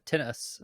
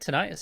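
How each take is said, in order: First: Tinnitus is said the British way. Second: Tinnitus is said the American way.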